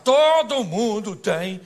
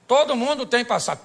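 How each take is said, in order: First: "Todo" loud and hugely drawn out; slow, loud emphasis on a long "Todo"; stress on TODO. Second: Loud, forceful declaration at a steady pace; raised preacher's voice, evenly punched; emphatic preaching. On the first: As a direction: stretch out "Todo" at full voice. Repeats it with a stretched first word. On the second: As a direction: drive the whole line home to the congregation. Preacher repeats the line with force. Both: Real, not acted.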